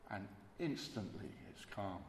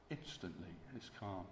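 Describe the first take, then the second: First: Said in the usual way. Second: "calm" dropped much softer and falling; hushed repeat. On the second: Shown as a demonstration. Preacher echoing the stilled storm to the congregation, hushed. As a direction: let the hush settle on "calm".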